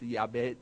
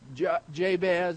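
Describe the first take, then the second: First: The name is said in its original-language way. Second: The name is said in an Americanized way. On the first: This is supposedly the original way of saying the name. "Supposedly it's Yabez or something like that" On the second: This is the familiar local way of saying the name. "It's a good old West Texas way of saying it"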